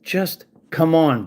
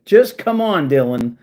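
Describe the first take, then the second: First: Slow weary plea. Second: Louder exasperated plea. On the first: Ranting at troll Dylan, slow weary plea. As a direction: come drawn out slow and tired. Exasperated rant at an online troll. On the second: Ranting at troll Dylan, loud exasperated plea. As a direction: throw your hands up and shout it. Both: Real, not acted.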